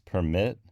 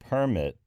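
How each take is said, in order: First: The stress is on the second syllable. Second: The stress is on the first syllable.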